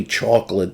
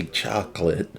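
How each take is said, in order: First: "chocolate" with a rounded aw, "chawk-lit"; own regional pronunciation. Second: "chocolate" with an open ah, "chahk-lit"; non-Northeastern "chocolate", first vowel like ah; other people's pronunciation. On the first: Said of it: "I know they don't say chocolate". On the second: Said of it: "they say chocolate". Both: Shown as a demonstration.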